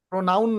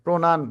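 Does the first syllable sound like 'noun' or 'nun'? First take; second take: noun; nun. First: The second syllable has the 'noun' vowel sound. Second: The second syllable has the 'nun' vowel sound. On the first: The speaker calls it wrong. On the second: The speaker calls it right.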